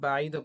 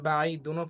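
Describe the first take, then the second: First: The word ends abruptly on a bare 'd'. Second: The word ends with a full 'dun' syllable. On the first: The reader stops at the end of the word. "বাইদও পড়া যাবে যেহেতু এখানে থামছেন" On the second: The reader continues without stopping. "এখানে বাই দুনো পড়া যাবে"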